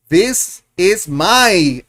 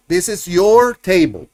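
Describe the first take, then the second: First: Very slow, stretched teacher model; very slow classroom model; drawn-out model. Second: "your" stressed as the correction; corrected model with "your" stressed. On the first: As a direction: draw each word out for the class. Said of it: "So you're gonna say". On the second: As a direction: lean on "your" to fix the mistake. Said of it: "no, it is for you". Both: Shown as a demonstration.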